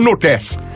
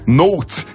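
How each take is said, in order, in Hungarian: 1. Betűnként olvassuk, magyaros módon. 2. Angol módon ejtjük.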